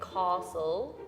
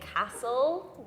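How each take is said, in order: First: It is said southern-style with an added R-like sound. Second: It is said in a northern English accent. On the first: "in the south, they would say castle and kind of add an R sound" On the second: "I'm from the north, so I say castle"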